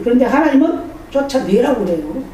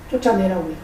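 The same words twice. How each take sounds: First: 하나님은 stressed with a rising lift; emphatic stress. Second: 쫓아내라고 repeated softly with a falling end; quiet echo. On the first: Preacher to the congregation, stressing 하나님은 with a rise. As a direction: push 하나님은 up, then land it. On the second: Preacher repeating God's command softly to the congregation. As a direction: drop the voice and let 쫓아내라고 fall away. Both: Shown as a demonstration.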